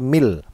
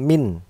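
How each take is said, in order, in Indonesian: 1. Kata "min" berakhir dengan bunyi l. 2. Kata "min" berakhir dengan bunyi n. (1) "tapi mil" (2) "Jadi jangan min"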